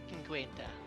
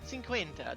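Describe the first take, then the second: First: The word begins with a hard K sound. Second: The word begins with a soft S sound. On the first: The speaker calls it wrong. "I don't remember how to pronounce it" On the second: The speaker calls it right. "soft C. ... that's right"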